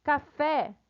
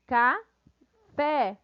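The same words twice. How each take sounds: First: Said in the usual way. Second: "ca-fé" as two beats with a clear gap; split into syllables. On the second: Shown as a demonstration. Teacher counting two syllables, "ca-fé" syllable by syllable. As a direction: say "ca-fé" separately: ca... fé. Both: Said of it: "duas sílabas".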